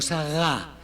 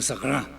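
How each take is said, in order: First: The R sound is weak or missing. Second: The R sound is strong and clear. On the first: The speaker calls it wrong. "no Sagá" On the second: The speaker calls it right. "Con la R. La R fuerte"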